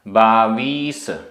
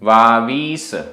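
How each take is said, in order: First: The word begins with a 'b' sound. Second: The word begins with a 'v' sound.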